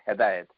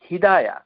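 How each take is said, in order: First: It starts with 'he' and ends with a 't'. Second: It starts with 'hi' and ends with an 'a'. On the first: The speaker calls it wrong. "এই ধরনের উচ্চারণ করবেন না" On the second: The speaker calls it right. "শুদ্ধ করে সুন্দর করে আরবি শিখুন"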